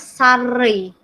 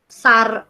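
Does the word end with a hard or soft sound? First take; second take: soft; hard. First: The word ends with a softened final sound. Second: The word ends with a plain, hard final sound. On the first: The speaker calls it right. "tapi dibacanya sarei" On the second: The speaker calls it wrong. "bukan sar biasa"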